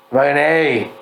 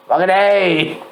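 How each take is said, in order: First: Said in the usual way. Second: Mock Aussie accent. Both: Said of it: "I don't know what accent that was".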